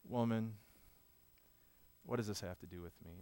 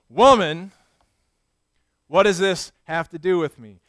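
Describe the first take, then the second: First: The tone is gentle and caring. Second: The tone is sharp and dismissive. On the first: The speaker responds with understanding. "with understanding in his eyes and care" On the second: The speaker brushes the request aside. "Or was it more like this?"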